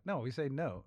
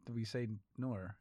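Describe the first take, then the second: First: NO ending cleanly on the oh vowel; imitated Australian woman's matter-of-fact NO; plain NO. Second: Imitated Australian no that comes out NOR. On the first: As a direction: say NO with a simple open oh, no r. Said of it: "it was an Australian woman". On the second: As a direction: say NOR with an r on the end. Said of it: "So Americans think we say nor".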